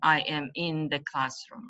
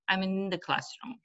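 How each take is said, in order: First: I am is said as two full, stressed words. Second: I'm is contracted and said quickly, unstressed. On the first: The speaker calls it wrong. "You shouldn't say" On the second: The speaker calls it right. "We pronounce it quickly because it's not stress"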